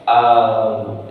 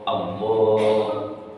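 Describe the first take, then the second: First: The first vowel of Allah is drawn out long. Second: The first vowel of Allah is kept short. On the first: The speaker calls it wrong. "Itu panjang namanya" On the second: The speaker calls it right. "Harus Allah, Allah. A-nya nggak boleh panjang"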